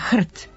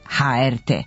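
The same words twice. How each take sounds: First: It is said as a single word, 'hrt'. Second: Each letter is named separately. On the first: "ustalilo da se skraćenica za Hrvatsku televiziju izgovara" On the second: "a ne"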